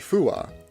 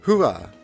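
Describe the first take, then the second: First: It starts with a full, clear f sound. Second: It starts with a soft, h-like breathy sound. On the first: The speaker calls it wrong. "you don't say fua" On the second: The speaker calls it right. "You say hua. you can sort of hear the F"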